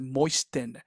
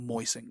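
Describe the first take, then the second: First: The T sound in the middle is pronounced. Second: The T sound in the middle is silent. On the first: The speaker calls it wrong. "la T es muda, no se dice moisten" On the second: The speaker calls it right. "sino moisten"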